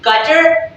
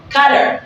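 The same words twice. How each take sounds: First: CUTTER with a clear hard T; slow CUTTER, T fully sounded; double T sounded. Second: Slow CUTTER, American flap; flapped T. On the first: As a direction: say CUTTER with a crisp T. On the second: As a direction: say CUTTER like "cudder". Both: Shown as a demonstration. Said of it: "place D instead of using double T".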